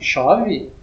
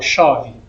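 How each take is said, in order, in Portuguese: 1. Tem uma entoação que não é de afirmação. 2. Tem a entoação de uma afirmação simples. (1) "vocês veem que a entoação muda" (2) "eu estou falando uma frase assertiva, ou seja, uma frase afirmativa"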